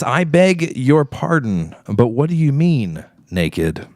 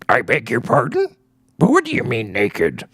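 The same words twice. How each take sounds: First: It is read in a plain natural voice. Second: It is read in a put-on character voice. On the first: "I shall read it in a non-accent" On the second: "That was a Yoda impersonation"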